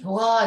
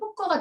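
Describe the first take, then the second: First: The second syllable starts with a plain consonant. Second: The second syllable starts with a tense consonant. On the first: This is the imposed standard form people don't use. The speaker calls it wrong. "효과 이렇게 안 되거든요" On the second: This is how people naturally say it. The speaker calls it right. "자연적으로 효과가 되지"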